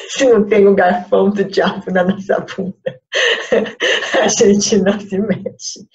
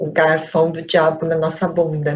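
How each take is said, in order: First: Repeats it through real laughter, louder; laughing. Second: Said in the usual way. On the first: Real, not acted. Teacher retelling her joke to students, laughing out loud. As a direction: laughs while saying it again. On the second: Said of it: "eu gosto de falar que é".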